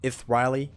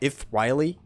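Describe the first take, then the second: First: The name is said with a Greek pronunciation. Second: The name is said with a Greek pronunciation.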